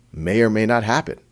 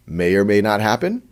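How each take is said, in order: Both takes have the same delivery.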